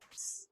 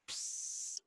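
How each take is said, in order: First: The s sound ends with the air cut off. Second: The s sound flows out with open air. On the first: The speaker calls it right. "It's pss, cut your air off" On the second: The speaker calls it wrong. "it's not pss"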